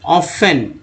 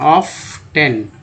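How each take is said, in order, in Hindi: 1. यह शब्द बिना किसी t ध्वनि के बोला जाता है। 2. यह शब्द एक साफ t ध्वनि के साथ बोला जाता है। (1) "ऑफन पढ़ते हैं इसे" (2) "लोग ऐसे पढ़ते हैं ऑफ टेन, जो कि एकदम सरासर गलत है"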